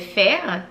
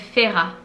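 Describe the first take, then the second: First: The name is said as one syllable. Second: The name is said as two syllables. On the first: The speaker calls it wrong. "dans ma tête c'est Fer" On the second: The speaker calls it right. "mais ils disent qu'on l'appelle Fera"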